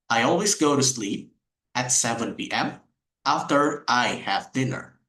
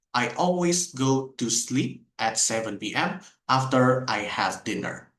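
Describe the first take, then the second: First: "I always go to sleep" said smoothly linked; connected speech. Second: Every word in "I always go to sleep" said apart; unconnected. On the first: Teacher showing the sentence with connected speech. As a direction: join the words naturally. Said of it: "if you use connected speech". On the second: Teacher showing how the sentence sounds without connected speech. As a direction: break up each word, no linking. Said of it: "If I don't use connected speech". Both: Shown as a demonstration.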